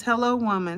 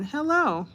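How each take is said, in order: First: Said in the usual way. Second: Mock-sweet squeaky hello; playful high hello. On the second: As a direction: jump up high for a cutesy hello. Answering the viewer's greeting playfully.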